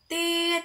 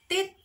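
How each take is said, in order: First: The sound is held long and drawn out. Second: The sound is short and clipped. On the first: It stands for a dash. "meniupnya itu agak lama, jadi panjang gitu" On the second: It stands for a dot. "meniup fluidnya sebentar"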